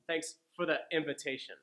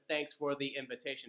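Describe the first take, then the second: First: 'For' and 'the' are reduced to schwa sounds. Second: 'For' and 'the' are said with full vowels. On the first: The speaker calls it right. "with the schwa sounds built in" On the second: The speaker calls it wrong. "Instead of"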